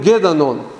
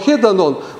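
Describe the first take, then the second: First: The word begins with a g sound. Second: The word begins with an h sound. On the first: This is the adapted Russian form. "мы говорим «гедонон»" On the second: This is the original Greek form. "греческое слово «хедонон»"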